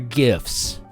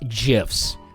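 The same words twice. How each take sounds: First: The word starts with a hard g sound. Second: The word starts with a j sound. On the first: The speaker calls it right. "I can tell you right now, they're GIFs" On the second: The speaker calls it wrong. "not GIFs. Don't say GIF. That's a peanut butter brand"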